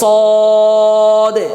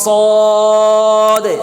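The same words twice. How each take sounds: No difference in how they are said.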